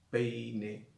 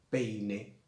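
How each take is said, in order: No difference in how they are said.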